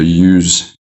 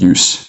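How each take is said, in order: First: The word ends with a buzzing z sound. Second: The word ends with a hissing s sound. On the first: It is the verb. "So use is the verb" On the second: It is the noun. "and then use is the noun"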